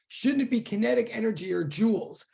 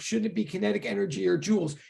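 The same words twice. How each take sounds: First: It is said at a slower pace. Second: It is said at a quicker pace.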